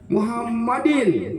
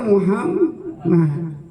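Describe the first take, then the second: First: The word ends with an added 'in' sound. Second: The word ends on a plain 'd' sound. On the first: The speaker calls it wrong. "Kalau Muhammadin berhenti" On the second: The speaker calls it right. "Harusnya Muhammad"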